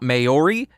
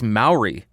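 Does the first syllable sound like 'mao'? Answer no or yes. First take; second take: no; yes. First: The first syllable does not sound like 'mao'. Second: The first syllable sounds like 'mao'. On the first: The speaker calls it wrong. "it is not Maori" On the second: The speaker calls it right. "it is Maori"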